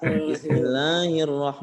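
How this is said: The 'hi' sound is nasal and unclear. The speaker calls it wrong.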